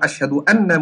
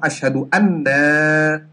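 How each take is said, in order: First: The vowel in 'anna' is short. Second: The vowel in 'anna' is drawn out long. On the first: Muhammad is the messenger of God. The speaker calls it right. "saya bersaksi bahwasanya Muhammad adalah utusan Allah" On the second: We are the messengers of God. The speaker calls it wrong. "asyhadu anna panjang, maknanya berubah"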